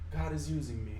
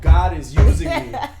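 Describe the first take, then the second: First: It is said lightly and gently. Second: It is said with more punch and energy. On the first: "light, and like spiritual" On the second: "just like a little more like"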